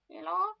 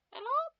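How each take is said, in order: First: Raised phone greeting, moderately exaggerated; loud, lifted hello; second-try hello. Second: Very high, loud squeaky hello; comically high-pitched phone greeting; exaggerated hello. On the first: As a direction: answer the phone high and loud, a little less silly. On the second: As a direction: answer the phone absurdly high. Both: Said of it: "He didn't say it like that".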